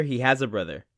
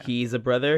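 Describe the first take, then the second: First: "has" stressed, falling at the end. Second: Rising question on "He's a brother?"; questioning tune. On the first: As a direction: hit "has" in "He has a brother.". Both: Shown as a demonstration.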